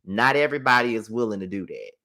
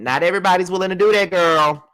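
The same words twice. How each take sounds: First: Said in the usual way. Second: 'Not everybody's willing to do that' said higher, louder and fast; emphatic repeat. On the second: Real, not acted. Telling viewers not everyone would do that, emphatic louder repeat. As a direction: hammer the point home the second time.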